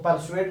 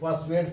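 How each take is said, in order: First: The r sound is clearly pronounced. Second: The r sound is nearly silent. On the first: The speaker calls it wrong. "इसको परसुएड नहीं पढ़ेंगे" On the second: The speaker calls it right. "आर को slightly silent करके pronounce करेंगे"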